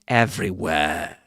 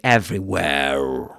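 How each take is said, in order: First: The final R sound is silent. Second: The final R sound is pronounced. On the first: "He doesn't pronounce that R sound at the end" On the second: "Notice that he doesn't say everywhere"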